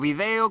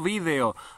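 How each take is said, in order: First: It is said the way Argentines say it. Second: It is not said the way Argentines say it. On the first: The speaker calls it right. "video con acento argentino" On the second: The speaker calls it wrong. "no vídeo"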